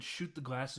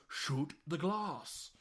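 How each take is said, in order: First: Said in the usual way. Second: Very slow, spelled-out command; slow deliberate order. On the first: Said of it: "in German". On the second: Retold or imitated. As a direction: say it slowly like to someone who doesn't get it. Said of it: "And he goes".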